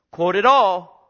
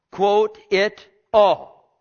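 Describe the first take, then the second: First: Loud preaching command; loud pulpit insistence; forceful command. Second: Slow, loud, each word weighted; drawn-out loud emphasis; slow emphatic repeat. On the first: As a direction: drive it home hard. Preacher repeats command for emphasis. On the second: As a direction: hammer each word slowly. Preacher repeats command slower. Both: Real, not acted.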